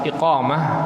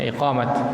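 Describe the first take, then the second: First: The word ends with a soft h sound. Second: The word ends with a clear t sound. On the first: This is the Arabic form. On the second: This is the local Indonesian form. "membunyikan ta-nya menjadi huruf ta"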